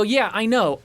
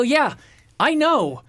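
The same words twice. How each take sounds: First: Slightly raised, contained impatience; mildly impatient. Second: High-pitched exasperated outburst; freaking out. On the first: Traveler answering the supervisor, mildly impatient. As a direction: acknowledge it with a touch of irritation. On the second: Traveler losing it at the supervisor, exasperated. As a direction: retell losing patience, voice jumping up high. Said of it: "I'm freaking out". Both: Retold or imitated.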